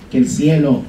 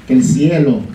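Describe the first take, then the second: No difference in how they are said.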